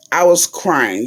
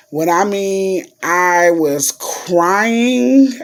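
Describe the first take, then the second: First: Said in the usual way. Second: "crying" stretched out long and raised; emphatic CRYING. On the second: Real, not acted. Telling viewers she lost it, "crying" heavily drawn out. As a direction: drag out the word "crying" for emphasis.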